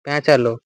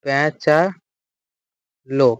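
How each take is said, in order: First: Said in the usual way. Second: প্যাঁচালো drawn out syllable by syllable; teacher spacing out প্যাঁচালো; slow dictation. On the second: Shown as a demonstration. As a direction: say প্যাঁচালো very slowly with gaps, for note-taking. Teacher repeats word slowly to dictate.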